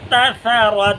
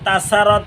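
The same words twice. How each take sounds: First: The s sound is heavy and emphatic. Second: The s sound is light and plain. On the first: The speaker calls it right. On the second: The speaker calls it wrong.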